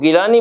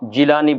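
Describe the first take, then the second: First: The name begins with a hard G sound. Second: The name begins with a J sound. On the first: This is how Persian speakers say it. "इधर जो है वो गिलानी बोला जाता है" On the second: This is how Arabic speakers say it. "उधर जो है वो जिलानी बोला जाता है"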